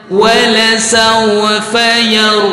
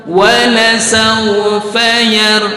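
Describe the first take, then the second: Both takes have the same delivery.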